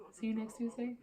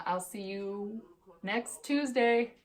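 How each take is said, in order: First: See you next Tuesday? lifted higher and softer, ending as a question; amused repeat. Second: Tuesday drawn out slowly, the whole phrase slowed and weighted; slow sign-off. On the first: Checking with viewers, higher and softer as a question. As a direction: toss the line back lightly, higher and quieter. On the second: Signing off to viewers, slow with a hidden joke on Tuesday. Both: Shown as a demonstration. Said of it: "Can't believe I've never said that".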